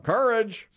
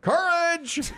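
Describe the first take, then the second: First: Blurting the trivia answer aloud; yelled answer. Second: Much higher, full shout so he hears; shouting the answer again at the quizmaster; louder second yell. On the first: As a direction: call the answer out across the room. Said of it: "I just yell out". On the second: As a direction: yell it again, far bigger this time. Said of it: "So I went". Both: Retold or imitated.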